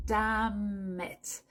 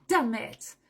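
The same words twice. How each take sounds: First: "Damn it" said "dam-it", the N silent; linked damn it. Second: "damn it" linked as "dam it", no N; liaison demo. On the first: Teacher repeats the linked form. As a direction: link "Damn it" into one word. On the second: Teacher links it with no N sound. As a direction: run "damn it" together like "dam-it". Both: Shown as a demonstration. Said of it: "Tu fais la liaison".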